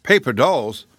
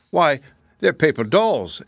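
First: Lightly voiced incredulous echo; a touch of astonished questioning; mild disbelief. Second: Lightly voiced girl explaining, higher and slower; slightly put-on, higher-pitched answer; Dorothy answering. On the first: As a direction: repeat it as a doubtful query. Uncle Henry echoes in disbelief. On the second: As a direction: explain it slowly, with a lift on the key words. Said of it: "answered Dorothy". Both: A narrator's reading.

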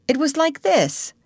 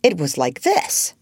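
First: High-pitched, eager mother showing how; high voice introducing an imitation; attempted demonstration. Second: Grave correction at an ordinary pitch; understated, solemn demonstration. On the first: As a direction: lift it high on LIKE, then fall. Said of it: "trying to imitate Peter's crow". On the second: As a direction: show her seriously how it really went. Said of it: "Jane said gravely". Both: A narrator's reading.

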